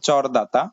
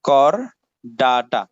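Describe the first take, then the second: First: The word begins with a ch sound. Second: The word begins with a k sound.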